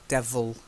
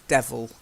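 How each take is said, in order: Both takes have the same delivery.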